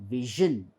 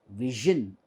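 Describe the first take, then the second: Both takes have the same delivery.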